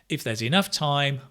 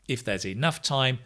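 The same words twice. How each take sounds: The two takes are said the same way.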